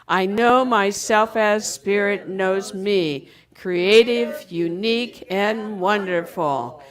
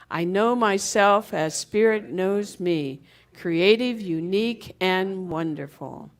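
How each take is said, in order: First: It is said loudly. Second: It is said in a normal voice.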